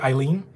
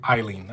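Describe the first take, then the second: First: Eileen with a rising, unsure tune; questioning rise. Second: Eileen said lower with a falling, final tune; settled fall. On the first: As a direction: try out Eileen as a question, voice going up. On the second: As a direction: land Eileen firmly, pitch dropping. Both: Shown as a demonstration. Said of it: "did I say Eileen or Eileen".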